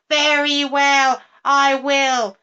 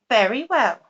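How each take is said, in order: First: Higher, louder, slow sneering agreement; mocking witch. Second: Said in the usual way. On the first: A narrator's reading. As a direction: sneer it slowly as a wicked promise. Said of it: "she cried". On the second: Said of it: "said the toad".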